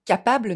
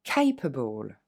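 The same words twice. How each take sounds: First: Capable read the French way, full final a; the wrong French capable; French-style capable. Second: Capable with kay sound and weak final syllable; English capable. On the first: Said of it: "ne va pas se prononcer capable". (capable à la française, la mauvaise façon) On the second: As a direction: say capable the English way, able unstressed. (capable à l'anglaise, fin non accentuée) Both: Shown as a demonstration.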